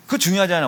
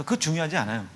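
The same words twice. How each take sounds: First: 그거 중요하지 않아 said louder, pressing the point home; firm emphatic repeat. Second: Said in the usual way. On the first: Shown as a demonstration. Pastor stressing the point to the congregation, louder.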